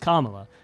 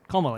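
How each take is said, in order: First: The first vowel is long and open. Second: The first vowel is short and clipped. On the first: The speaker calls it right. "It is Kamala. It's an R sound" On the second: The speaker calls it wrong. "It's not Kamala"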